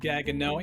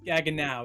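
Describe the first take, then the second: First: The final syllable does not rhyme with now. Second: The final syllable rhymes with now. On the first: The speaker calls it wrong. "I've heard people mispronounce it Gaggenau" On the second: The speaker calls it right. "it's pronounced Gaggenau, as in how now, brown cow"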